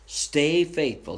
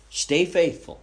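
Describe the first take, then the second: First: Slow it right down, each word weighed; slow earnest repeat. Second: A preacher pressing the point home; urgent exhortation. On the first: Preacher repeating his plea to the church, slow and deliberate. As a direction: let the repeat sink in slowly. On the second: Preacher urging the congregation, forceful and raised. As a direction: punch it out, higher and louder. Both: Acted.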